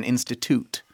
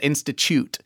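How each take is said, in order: First: Institute with a hard t, "insti-toot"; "toot" ending. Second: Institute with a "ch" sound, "insti-choot"; "choot" ending. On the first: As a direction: end institute on a clean "toot". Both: Shown as a demonstration. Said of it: "I got corrected by the writer".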